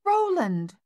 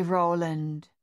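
First: Much higher, loud cry of the dog's name "Roland!"; grateful cry. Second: Said in the usual way. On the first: A narrator's reading. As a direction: call "Roland!" high and loud in shaken relief. Mother cries dog's name.

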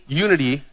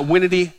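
First: Said in the usual way. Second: Winity said with a nasal "win" in place of "you"; playfully twist unity into winity; joking mispronunciation. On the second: Shown as a demonstration. Preacher joking with the crowd, saying winity.

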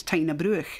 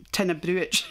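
First: "Bruch" ending in a throaty ch as in loch; native pronunciation. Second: "Bruch" ending in an English ch as in church; hard tch closing "Bruch"; mistaken pronunciation. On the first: Shown as a demonstration. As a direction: say "Tyna Bruch" with a Scottish ch. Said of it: "dinna ken how to pronounce". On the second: Retold or imitated. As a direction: say "Tyna Bruch" as a stranger reads it, brooch-like ending. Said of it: "folk that dinna ken how to pronounce".

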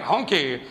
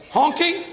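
First: HONKY dropped low, falling at the end; falling statement. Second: HONKY pitched high, rising like a question. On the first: Comic showing the word lacks bite, HONKY low and falling. Testing how the odd word sounds. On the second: Comic puzzling over an odd word, HONKY as a high question. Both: Shown as a demonstration.

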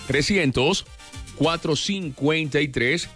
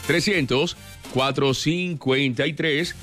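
Both takes have the same delivery.

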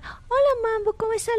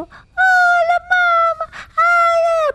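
First: Said in the usual way. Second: High, loud gushing squeal; overexcited pet greeting. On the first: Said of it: "le hablas normal". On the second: Shown as a demonstration. Child demonstrates how not to greet a dog, gushing. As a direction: shriek a hello at the dog, way over the top. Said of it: "porque él no es así".

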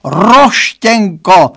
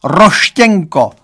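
First: Slower, higher drawn-out wail; father wailing the nickname once more; lamenting. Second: Slow, drawn-out mock wail; father lamenting a boy's nickname for his daughter.

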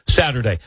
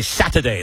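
First: Said in the usual way. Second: "Saturday" with the R dropped, as Satta-day; regional pronunciation. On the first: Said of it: "instead of Saturday". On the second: Shown as a demonstration. Met fan showing his hometown speech, Satta-day for "Saturday". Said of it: "dropped the G's on words".

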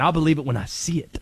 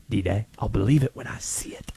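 First: Lightly voiced low character; sceptical sign-off. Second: Low, hushed repeat of a doubt; conspiratorial near-whisper. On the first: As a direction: drop lower to voice your doubt. Closing his conspiracy rant in character. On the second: Acted. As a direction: sink to a low whisper, as if confiding. Repeats the sign-off, trailing into whisper.

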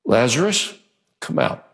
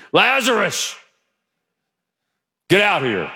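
First: Said in the usual way. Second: Lazarus called out high and loud, to scare the church; scary loud call. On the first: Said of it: "Jesus said it in a loud voice". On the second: Shown as a demonstration. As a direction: bellow Lazarus out of the tomb. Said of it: "I want to scare you".

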